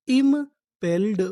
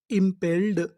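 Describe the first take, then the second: First: Slow drawn word. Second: Said in the usual way. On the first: Shown as a demonstration. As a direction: sound out impelled slowly and clearly. (धीरे और ज़ोर से बोलना) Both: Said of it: "तो हमारी पूरी meaning क्या बनी?".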